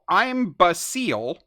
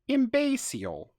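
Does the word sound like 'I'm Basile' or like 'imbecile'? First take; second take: I'm Basile; imbecile. First: It is read out letter by letter, like 'I'm Basile'. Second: It is said like the ordinary word 'imbecile'. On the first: "the word is spelled I M B A S E A L. So I'm Basile" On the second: "which I believe is to be pronounced imbecile"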